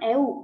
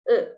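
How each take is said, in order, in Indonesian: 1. Vokalnya punya bunyi u yang jelas. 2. Vokalnya terdengar di antara e dan u. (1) "Bukan EU ya dibacanya" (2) "Antara huruf E dan U"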